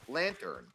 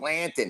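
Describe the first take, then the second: First: Every letter is sounded, including the r. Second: The r is dropped, like a Boston accent. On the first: This is how the speaker and his brothers say it. "me and my brothers say every letter" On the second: This is how the parents from New England say it. "my parents, who have Massachusetts accents, would say Lantin"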